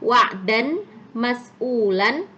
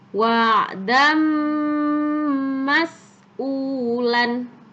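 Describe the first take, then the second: First: The n sound is kept before the next word. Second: The n sound merges into the next word. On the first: "Tulisannya wa'dan" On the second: "Harus dibaca masuk disertai dengung yang lama"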